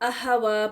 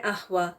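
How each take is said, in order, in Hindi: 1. h के बाद छोटा 'अ' स्वर आता है। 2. h को बिना किसी स्वर के साँस के साथ छोड़ा जाता है। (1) "उस पर ज़बर लगाकर। तो ये गलत है" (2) "साकिन"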